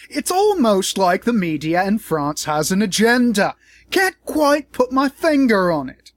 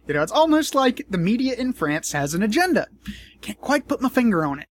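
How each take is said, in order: First: Louder, higher mock British drawl, dragging the last line; bad Paul Joseph Watson impression. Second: Said in the usual way. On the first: Vlogger mocking a pundit in a bad British accent. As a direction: ham up a British pundit's smug voice. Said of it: "That was the worst Paul Joseph Watson impression". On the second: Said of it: "Although he would probably say".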